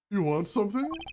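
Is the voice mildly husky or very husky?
mildly husky. The voice is only mildly husky.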